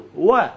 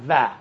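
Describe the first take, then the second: First: و as an open wa, lips rounded; waw with fatha. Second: و as va, teeth on lip; wrong waw. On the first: Teacher isolates the open waw, rounded wa. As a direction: say و as wa, no teeth. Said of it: "اصلاً و مفتوح". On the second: Teacher shows what he is not saying, toothy va. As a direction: say و with a v sound. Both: Shown as a demonstration.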